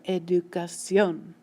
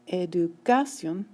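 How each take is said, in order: First: The stress is on the last syllable. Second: The stress is on the second-to-last syllable. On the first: The speaker calls it right. "the stress is coming on the end of the word" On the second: The speaker calls it wrong. "It's not educación"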